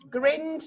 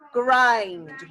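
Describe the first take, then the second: First: The vowel is short, as in 'grin'. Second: The vowel is long, as in 'eye'. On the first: The speaker calls it wrong. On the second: The speaker calls it right.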